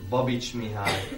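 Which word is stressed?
Babits. The stress falls on the family name Babits. The speaker calls it right. "a magyar nyelvben az elején van a névnek a hangsúly"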